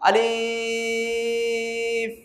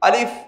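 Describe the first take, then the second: First: The word is drawn out long. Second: The word is said short and quick. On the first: The speaker calls it wrong. "ভুল কেন, লম্বা" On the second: The speaker calls it right. "দ্রুত বলুন"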